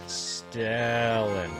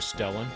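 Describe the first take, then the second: First: The E vowel is drawn out long. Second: The E vowel is said short and normal. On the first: "Was that elongated enough?" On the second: "Am I pronouncing Stellan correctly?"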